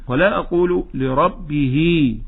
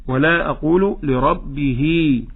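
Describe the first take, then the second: The two takes are said the same way.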